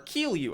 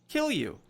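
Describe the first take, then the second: First: The first syllable has a long 'ee' vowel. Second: The first syllable has a short 'i' vowel. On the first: The speaker calls it right. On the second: The speaker calls it wrong.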